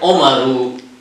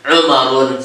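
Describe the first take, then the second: First: The name ends in a plain u vowel. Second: The name ends in an added n sound. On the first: The speaker calls it right. "Huruf ketiganya di dhammah saja" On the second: The speaker calls it wrong. "tidak boleh dibaca Umarun, salah"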